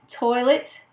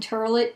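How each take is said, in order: First: The first vowel is said without an R sound. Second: The first vowel is said with an R sound.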